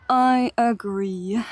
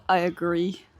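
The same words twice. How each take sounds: First: Slow, hushed whispered agreement. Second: Said in the usual way. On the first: Real, not acted. Streamer agreeing with chat, slow whisper. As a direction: whisper it like a secret aside.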